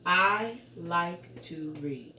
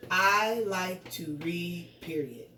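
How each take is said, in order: First: Slow, separate words, dropping on READ; statement read, period unspoken. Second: Slow words, then PERIOD spoken as a word; punctuation read aloud. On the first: Teacher modelling how to read a period, slow statement read. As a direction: stop on READ with a falling voice. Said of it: "I do not want to say". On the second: Teacher showing pupils the mistake of reading PERIOD aloud. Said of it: "That is not what I want to say". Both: Shown as a demonstration.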